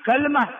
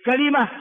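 First: كلمة with sukun on the lam; shortened middle. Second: كلمة with kasra on the lam; original vowelled form. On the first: Teacher drilling three forms, crisp model word "kalma". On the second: Teacher drilling three forms, crisp model word "kalima". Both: Shown as a demonstration. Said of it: "ثلاث لغات".

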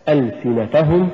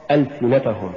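First: "ألسنتهم" rising, gentle push on ta; correct ألسنتهم. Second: "ألسنتهم" falling, no push on ta; mispronounced ألسنتهم. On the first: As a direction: lift the ta of ألسنتهم lightly before hum. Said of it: "فتقرأ هكذا". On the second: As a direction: let the ta of ألسنتهم slip by weakly. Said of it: "والخطأ". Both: Shown as a demonstration.

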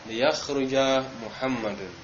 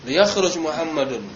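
First: "liyakhruja Muhammadun" in an even, gently sloping tune, unhurried; intonasi landai. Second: "Liyakhruj Muhammadun" barked as a quick command, higher and louder; nada membentak perintah. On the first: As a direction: ease through "liyakhruja Muhammadun" without any commanding punch. ("liyakhruja Muhammadun" diucapkan landai, tanpa bentakan) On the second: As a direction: snap out "Liyakhruj Muhammadun" high and forceful, like an order. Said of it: "berarti bentak". ("Liyakhruj Muhammadun" dibentak cepat dengan nada tinggi, seperti perintah) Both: Shown as a demonstration.

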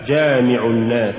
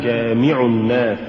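First: Said in the usual way. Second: جامع الناس with too much stress on the mim; جامع الناس, accent shifted onto مِ; overstressed mim. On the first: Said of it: "والصواب جامع الناس". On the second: Shown as a demonstration. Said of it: "هو زيادة نبرة الميم".

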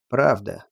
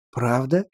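First: Said in the usual way. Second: Rising amazed question. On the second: Acted. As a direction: ask it in disbelief. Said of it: "изумился Монго".

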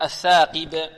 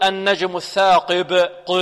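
First: الثاقب with a clean "qi" and bounced final ب; preserved qāf kasra. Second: الثاقب with the kasra on ق opened towards a heavy "qe"; slow recitation, over-heavy ق in الثاقب, vowel sagging to "e"; wrong qāf kasra. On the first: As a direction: keep the "i" after ق pure in الثاقب. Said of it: "ونحافظ على كسرة القاف". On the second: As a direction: drag out الثاقب with a too-thick "qe" for "qi". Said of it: "لا نقول". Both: Shown as a demonstration.

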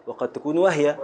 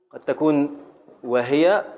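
First: وهي said wah-ya, the ha silent. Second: وهي said wa-hi-ya, the ha voweled, drawn slowly; وهي with moving ha. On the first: Teacher gives the second reading of وهي, ha silent. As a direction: clip the ha in وهي to a stop. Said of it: "ويجوز تبقى ساكنة". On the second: Teacher shows the first reading of وهي, ha voweled. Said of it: "يجوز تبقى وهي بالحركة". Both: Shown as a demonstration.

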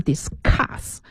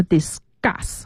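First: Discuss said slowly as dis-KUS with a puffed k; aspirated c. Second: Discuss said slowly as dis-GUS, c like a g; voiced c after s. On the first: Teacher offering the mistaken option, discuss with aspirated k. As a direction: discuss with a hard, breath-released k after the s. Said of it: "还是discuss". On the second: Teacher offering two readings to choose from, discuss with g sound. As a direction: discuss with an unaspirated g-like c. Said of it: "在清辅音后面的重读都要浊化". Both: Shown as a demonstration.

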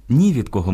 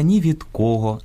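First: «ні від кого» with the stress on «ні». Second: «ні від кого» with the stress on «кого», кОго. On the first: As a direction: stress NI, leave «кого» unstressed. («ні від кого» — наголос на «ні») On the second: («ні від кого» — наголос на «кого») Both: Shown as a demonstration. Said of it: "Наголос у сполуках слів".

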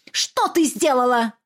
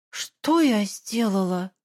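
First: Demanding question. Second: Slow, bewildered repeat; dazed echo. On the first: Mother interrogating her daughter, pressing. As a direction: push her for an answer. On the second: Daughter echoing her mother, slow and lost. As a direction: ask it numbly. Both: Acted.

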